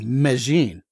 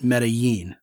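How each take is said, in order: First: The double L sounds like an English J. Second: The double L sounds like an English Y. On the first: This is how the locals say it. The speaker calls it right. "the double L is a J instead of a Y ... actually Medellin" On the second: This is the classroom Spanish pronunciation. The speaker calls it wrong. "everybody who's ever been to Spanish one would probably pronounce it Medellin, which to me sounds kind of awkward"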